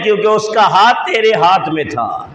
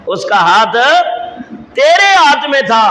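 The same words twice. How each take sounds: First: Said in the usual way. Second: تیرے thrown up high after a pause; emphatic repeat with تیرے leaping in pitch; stress on تیرے. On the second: Acted. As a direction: set up the phrase, then hit تیرے high and hard. Repeats reason, stressing whose hand.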